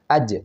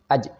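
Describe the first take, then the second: First: The j sound is clear and fully voiced. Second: The j sound is broken and split apart. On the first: The speaker calls it right. "jahr, harus jelas" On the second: The speaker calls it wrong. "ada pecah"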